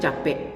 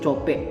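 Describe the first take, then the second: First: The first vowel is an open 'a' sound. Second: The first vowel is an 'o' sound. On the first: This is the common regional form. "bahasa Minang pada umumnya itu capek" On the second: This is the speaker's home-town form. "lebih vokal O-nya dijelaskan"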